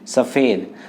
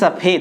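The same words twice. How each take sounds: First: The middle consonant is an f sound. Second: The middle consonant is a ph sound. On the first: "मैंने नुक्ता लगाया यहाँ पर" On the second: "नुक्ता हटा दूं तो ये सफेद है"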